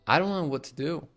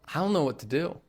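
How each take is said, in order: First: The words run together with a soft D. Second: The same.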